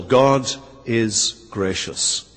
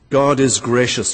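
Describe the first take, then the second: First: Slow, hushed, each word weighed; slow emphatic. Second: Said in the usual way. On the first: Shown as a demonstration. Preacher to congregation, first point, slow and hushed. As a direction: let God is gracious sink in slowly. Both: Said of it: "First of all".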